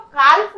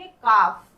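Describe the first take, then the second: First: "काल्फ" with an audible L before the F; "काल्फ" mispronounced with L sounded. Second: "काफ" with no L before the F; "काफ" with a long vowel, L left silent. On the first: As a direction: say "काल्फ" as kalf, voicing the L. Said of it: "काल्फ नहीं पढ़ेंगे". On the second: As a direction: say "काफ" as kaaf. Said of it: "हम लोग यहाँ पर क्या पढ़ेंगे". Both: Shown as a demonstration.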